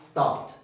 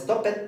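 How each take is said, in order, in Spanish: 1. La terminación no añade ninguna sílaba extra. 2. La terminación se pronuncia como una sílaba extra. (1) "es stopped" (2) "no es stop it"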